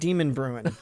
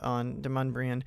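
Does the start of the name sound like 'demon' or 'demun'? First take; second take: demon; demun. First: The first part sounds like the word 'demon'. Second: The first part sounds like 'demun', run together. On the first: The speaker calls it wrong. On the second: The speaker calls it right.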